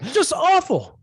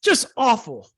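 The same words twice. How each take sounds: First: Very high, louder mock despair; exaggerated wail. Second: High, drawn-out groan of dismay; mock lament. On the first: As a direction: overdo the dismay, pitched way up. Repeats it even higher. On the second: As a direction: wail it like a disgusted fan. Co-host mock lament opener.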